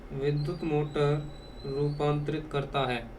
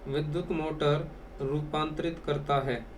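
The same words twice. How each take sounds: The two takes are said the same way.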